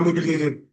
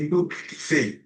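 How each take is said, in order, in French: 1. Les syllabes sont avalées en parlant vite. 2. Chaque syllabe est bien articulée. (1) "C'est pas mobiliser" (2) "c'est mobiliser"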